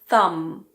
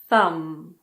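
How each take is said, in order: First: The word ends with an m sound. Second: The word ends with an m sound.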